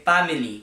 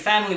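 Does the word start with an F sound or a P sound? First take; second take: P sound; F sound. First: The word starts with a P sound. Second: The word starts with an F sound. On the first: "we say family; the P's and F's tends to just sound like a P" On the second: "Instead of saying"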